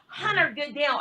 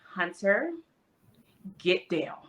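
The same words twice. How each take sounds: First: The command is yelled loudly. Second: The command is said in a firm, lower tone. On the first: The speaker calls it wrong. "I can't yell" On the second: The speaker calls it right. "changing my tone a bit works"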